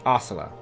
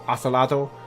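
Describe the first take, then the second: First: The name ends without any T syllable. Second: The name ends with a clear T syllable.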